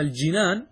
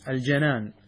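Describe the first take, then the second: First: الجنان said as al-jinān, an i after the jim; الجنان with a clear kasra: al-jinān, the gardens. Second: الجنان said as al-janān, open a after the jim; الجنان with a clear fatha: al-janān, meaning the heart. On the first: Teacher sets it against the first reading, a clear kasra on الجنان. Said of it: "بكسر ال-، الجيم". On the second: Teacher tells students which vowel to use, a clear fatha on الجنان. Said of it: "الجنان بفتح الجيم". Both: Shown as a demonstration.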